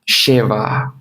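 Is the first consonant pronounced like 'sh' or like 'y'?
sh. The first consonant is pronounced like an 'sh' sound. This is how people in Buenos Aires say it. "vão falar caché, cheva, assim, começa sh"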